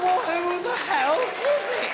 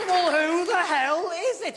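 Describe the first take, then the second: First: Exasperated question. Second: Slow, loud, drawn-out exasperation; exasperated question. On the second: Guest demanding who's calling, slow loud exasperation. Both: Retold or imitated. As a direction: drag it out in disbelief.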